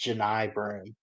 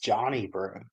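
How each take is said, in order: First: The first name is said as Janai. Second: The first name is said as Johnny. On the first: The speaker calls it right. "his name was pronounced Janai Broom. That's how you say it" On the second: The speaker calls it wrong. "I thought it was just Johnny Broom"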